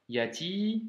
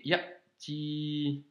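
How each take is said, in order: First: Said in the usual way. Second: Ya'ti slow, a clear catch before ti; glottal stop. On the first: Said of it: "ça ne se lit pas yati". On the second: Shown as a demonstration. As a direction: block the breath in ya'ti. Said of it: "mais ya'ti". (ya'ti, lentement, avec le blocage)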